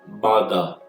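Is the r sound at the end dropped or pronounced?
dropped. The word ends in a schwa without r. "Se for o British... ele não pronuncia esse R no final, ele acaba com aquele schwa"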